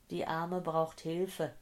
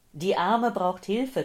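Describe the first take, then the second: First: Slow, subdued repetition; slow echo. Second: Loud, raised urgent cry for help; urgent, panting plea. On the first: Acted. Dazed woman recalling the old man's cry, slow and subdued. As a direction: let the remembered words drift past slowly. Earlier cry echoes in her head. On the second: A narrator's reading. Old man phoning for an ambulance, urgent and agitated. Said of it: "keuchte der Mann".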